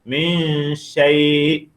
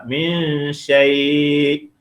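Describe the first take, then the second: No difference in how they are said.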